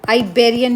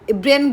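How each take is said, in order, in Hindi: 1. यह शब्द 'eye' ध्वनि से शुरू होता है। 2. यह शब्द एक छोटी 'ee' ध्वनि से शुरू होता है। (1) "वो एक्चुअल में आइबेरियन यूनियन बोला जाता है" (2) "जिसको हम इब्रियन बोल रहे थे"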